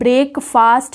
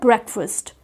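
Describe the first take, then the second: First: The second syllable sounds like 'fast'. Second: The second syllable sounds like 'fust'. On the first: The speaker calls it wrong. "ये ब्रेकफास्ट नहीं होता है" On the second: The speaker calls it right. "ये होता है ब्रेकफास्ट"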